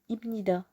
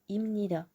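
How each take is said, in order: First: A B sound comes before the N. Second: An M sound comes before the N. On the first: The speaker calls it wrong. "ça serait plus compliqué de dire ibnida" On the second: The speaker calls it right. "Donc on dit imnida"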